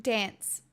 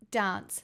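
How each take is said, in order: First: Said in the usual way. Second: "dance" with a long open "ah", like "dahnce"; broad-A "dance". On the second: Shown as a demonstration. Streamer testing accents on a word, "dance" as "dahnce". Trying two vowels of dance.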